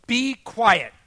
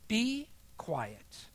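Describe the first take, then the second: First: Very loud, high, forceful order; booming retold rebuke; exclaimed command. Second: Curt, restrained quoted order; higher-pitched but unraised retold command. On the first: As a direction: shout it with an exclamation point. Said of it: "speaks with an exclamation point". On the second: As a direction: give the short order without shouting. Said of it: "curt answers".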